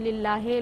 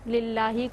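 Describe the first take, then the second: First: The word ends with an 'ay' vowel. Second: The word ends with a long 'ee' vowel. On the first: The speaker calls it wrong. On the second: The speaker calls it right.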